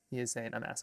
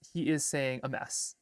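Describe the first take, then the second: First: Said in the usual way. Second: He is saying a mess with "is" drawn out and stressed; careful over-enunciation, "is" stretched long; slow enunciated. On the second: Shown as a demonstration. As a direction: spell out each word slowly, leaning hard on "is". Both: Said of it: "You just gotta enunciate".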